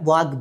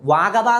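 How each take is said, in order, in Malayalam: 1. "g", "b" ഒരു കൂട്ടമായി (cluster) ചേർന്നിരിക്കുന്നു. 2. "g", "b" വ്യത്യസ്ത അക്ഷരങ്ങളിലാണ്. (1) "വാഗ്ബ എന്ന് പറഞ്ഞു" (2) "വാഗബ എന്ന് പറയുന്നതിന് പകരം"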